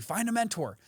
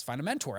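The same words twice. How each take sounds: First: Higher, sing-song quote of common advice; lightly mocking the advice everyone gives. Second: Said in the usual way. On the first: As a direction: parrot the advice in a raised voice. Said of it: "Everyone tells you". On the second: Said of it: "I've heard from shows like this".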